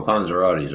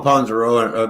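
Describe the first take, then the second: First: "panzerottis" said as pan-zer-OT-tees, the correct ending; "panzerottis" corrected with a -rotti ending; corrected word. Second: "panzeroni" said as pan-zer-O-ni, wrong ending; "panzeroni" slips to an -oni ending; mispronounced. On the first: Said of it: "we call 'em panzerottis over here". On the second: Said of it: "we call 'em panzerottis". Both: Shown as a demonstration.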